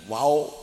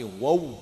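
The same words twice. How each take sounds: First: The lips are opened wide and loose. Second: The lips are narrow and tightly rounded. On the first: The speaker calls it wrong. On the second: The speaker calls it right.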